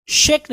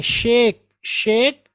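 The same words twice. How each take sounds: First: शेक with a short "e"; mistaken pronunciation. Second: शेक with a long "ay"; correct pronunciation. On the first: Teacher shows what to avoid, शेक as short "sheck". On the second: Teacher drills the correction, शेक as long "shake". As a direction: lengthen शेक into "shayk". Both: Shown as a demonstration. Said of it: "शेक नहीं पढ़ेंगे".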